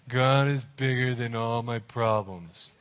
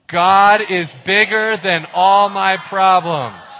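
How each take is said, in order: First: It is said flatly, without conviction. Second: It is said firmly, with real conviction.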